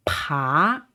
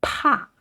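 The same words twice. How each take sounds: First: PA starting low and sweeping up; long, upward-gliding PA; rising tone. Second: PA starting high and falling sharply; short, high, falling PA; fourth tone. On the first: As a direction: raise the pitch through an aspirated PA. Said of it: "uprising tone". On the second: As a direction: drop down through an aspirated PA. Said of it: "the fourth tone is a falling tone". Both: Shown as a demonstration.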